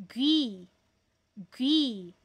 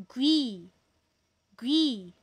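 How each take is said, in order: The two takes are said the same way.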